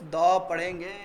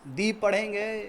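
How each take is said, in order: First: "द" with an open vowel, as before consonants; teacher's answer, "द" sounded duh; pronounced "the" as duh. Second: "दी" with an ee vowel, as before vowels; teacher's answer, "दी" sounded dee; pronounced "the" as dee. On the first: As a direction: say "द" clearly as duh. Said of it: "इसको हम क्या पढ़ेंगे". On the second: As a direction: say "दी" clearly as dee. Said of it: "क्या पढ़ेंगे इसको student". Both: Shown as a demonstration.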